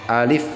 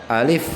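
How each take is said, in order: The two takes are said the same way.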